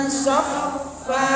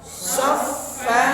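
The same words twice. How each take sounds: Both takes have the same delivery.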